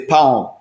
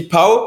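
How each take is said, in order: First: Giving the word for bread, pão with a nasal ending; pão said as a nasal "pown", voice falling. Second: Pão as an open "pa-o", without the nasal ending; pão said wrongly as "pow", voice rising; mispronounced pão. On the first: Teaching the word for bread to a friend, nasal falling pão. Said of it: "t'as l'intonation". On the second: Showing a friend the embarrassing slip, un-nasal rising pão. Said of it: "si tu la dis pas". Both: Shown as a demonstration.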